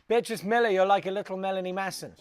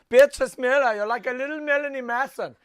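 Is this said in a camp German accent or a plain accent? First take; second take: plain; camp German. First: It is said in the speaker's plain accent. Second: It is said in a camp German accent.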